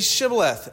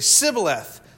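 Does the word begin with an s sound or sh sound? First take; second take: sh sound; s sound. First: The word begins with an sh sound. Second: The word begins with a plain s sound. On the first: The speaker calls it right. "they didn't have the sh sound. "Say Shibboleth."" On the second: The speaker calls it wrong. "they couldn't say the sh"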